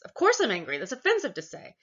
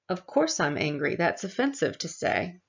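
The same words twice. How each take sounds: First: It is said with audible anger. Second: It is said flatly, without intensity.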